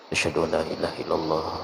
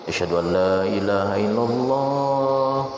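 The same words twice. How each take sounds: First: The phrase is said quietly. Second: The phrase is said loudly. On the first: "pelan dahulu" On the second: "baru sesudah itu dengan suara yang nyaring"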